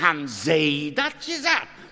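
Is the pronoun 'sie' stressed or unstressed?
stressed. The pronoun is stressed and said in full. It asks whether they, rather than others, said it. "Da muss man sie sagen"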